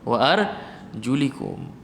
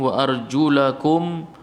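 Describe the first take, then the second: First: The vowel after 'arjul' is an 'i'. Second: The vowel after 'arjul' is an 'a'. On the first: The feet may be wiped. "ada riwayat kas kasrah" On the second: The feet are to be washed. "Kenapa fathah?"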